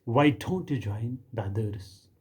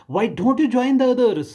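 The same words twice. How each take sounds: First: Said in the usual way. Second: Put-on much higher and louder, slow, stern teacher scolding a child. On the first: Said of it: "फिर कहा". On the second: Kindergarten teacher scolding the odd little girl, high and loud. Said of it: "उसने मुझे कहा".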